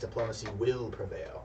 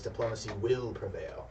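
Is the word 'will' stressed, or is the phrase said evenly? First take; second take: will; will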